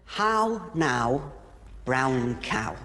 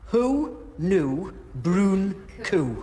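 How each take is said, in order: First: It is said in a standard posh accent. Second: It is said in a Geordie accent.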